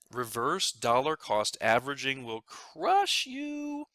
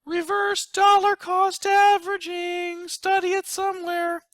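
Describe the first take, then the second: First: Said in the usual way. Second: Dramatic announcer. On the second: Acted. Planner unveiling a scary term to viewers, dramatic. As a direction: announce it like a movie title.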